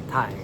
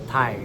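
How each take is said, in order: No difference in how they are said.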